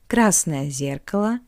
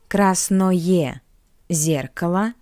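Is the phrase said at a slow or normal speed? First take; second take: normal; slow. First: The phrase is said at a normal speed. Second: The phrase is said slowly and carefully.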